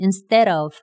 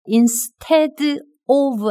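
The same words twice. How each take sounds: First: The d becomes a light flap sound. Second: The d is a hard, clear d sound. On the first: The speaker calls it right. "d 발음이 리을로 바뀌어요" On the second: The speaker calls it wrong. "아니에요"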